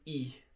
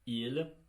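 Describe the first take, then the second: First: The word is shortened, dropping the final l. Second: The word is said in full with its final l. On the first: "you can just say I" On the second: "instead of pronouncing it like il, enunciating it like that"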